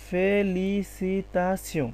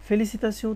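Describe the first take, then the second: First: Very slow, each syllable of ফেলিসিতাসিও separated. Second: Said in the usual way. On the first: Shown as a demonstration. Teacher assembling the French word for learners, very slow syllable by syllable. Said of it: "তার মানে এটা কি হবে?". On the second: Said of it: "ফেলিসিতাসিও তাহলে কি হয়?".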